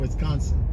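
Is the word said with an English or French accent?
English. The word is said with an English accent. "instead of"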